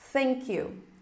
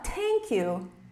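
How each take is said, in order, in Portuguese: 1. O primeiro som é um 'th' soprado e suave. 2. O primeiro som é um 't' duro. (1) "colocar a língua entre os dentes e assoprar" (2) "Vai soar um T"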